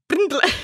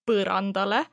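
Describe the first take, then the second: First: The first vowel is skipped, consonants run together. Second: A full vowel is sounded between the first consonants. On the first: The speaker calls it wrong. "they go from P to R super quick" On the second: The speaker calls it right. "That's the letter in our language, which is pronounced U"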